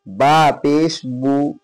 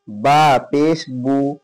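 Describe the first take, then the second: Both takes have the same delivery.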